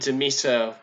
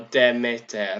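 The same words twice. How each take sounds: First: It is said with an English pronunciation. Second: It is said with an Ancient Greek pronunciation.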